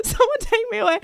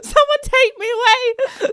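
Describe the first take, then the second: First: Laughing repeat. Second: Mock pleading. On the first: Retold or imitated. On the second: Mortified after the blunder.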